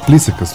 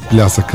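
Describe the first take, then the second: First: The vowel after 'pl' is an 'i' sound. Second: The vowel after 'pl' is a 'ya' sound. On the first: The speaker calls it right. "а плисъка" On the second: The speaker calls it wrong. "Не плясъка"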